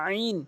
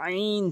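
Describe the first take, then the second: Both takes have the same delivery.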